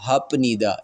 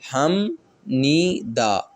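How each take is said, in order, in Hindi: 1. पहला अक्षर p की आवाज़ पर खत्म होता है। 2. पहला अक्षर m की आवाज़ पर खत्म होता है। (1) "ये रूल के बगैर है" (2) "इसकी आवाज़ ने मीम में बदलना है"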